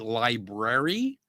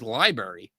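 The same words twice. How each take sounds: First: Both R sounds are clearly pronounced. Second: The second R sound is left out. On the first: This is the deliberate, careful pronunciation. "consciously say library to get that get that extra R in there" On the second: This is the natural everyday pronunciation. "for me, the normal pronunciation is library"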